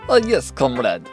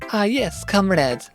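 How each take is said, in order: First: It has a Russian accent in an ordinary voice. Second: It has a Russian accent in a female voice. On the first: "Do I think I could do Russian?" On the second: "I don't think I can combine those two"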